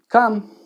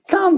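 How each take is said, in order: First: The word is said flatly, with little energy. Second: The word is said brightly, with lively energy. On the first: Nobody is drawn to come back. The speaker calls it wrong. "that's not very exciting" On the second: The listener is enticed to come back. The speaker calls it right. "in my uplifting voice"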